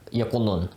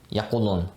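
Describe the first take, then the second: No difference in how they are said.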